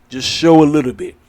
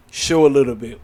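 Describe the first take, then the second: First: Louder, insistent push on the point; firm insistence; emphatic push. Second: Said in the usual way. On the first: Real, not acted. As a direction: drive it home, punching show. Insisting on wrestlers showing blood.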